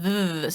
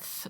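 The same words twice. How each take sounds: First: The th sound is voiced, with buzzing. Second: The th sound is voiceless, without buzzing. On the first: "it's voiced, so it's like a th sound" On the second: "and if it's at the end, it's a th sound"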